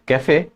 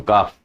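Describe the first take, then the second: First: "cafe" in two syllables, ending in "ay"; pronounced with acute accent. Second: "calf" as one syllable, "kaf"; pronounced without the accent. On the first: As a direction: sound the final é in "cafe". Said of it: "So make it cafe". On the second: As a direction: drop the final é sound, giving "calf". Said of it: "If you don't put this accent". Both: Shown as a demonstration.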